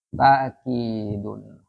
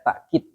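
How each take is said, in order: First: The first vowel is a long 'aa'. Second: A glottal stop follows the first vowel. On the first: "yang ketiga dipanjangkan, dimat" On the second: "Pakai takkid, pakai hamzah"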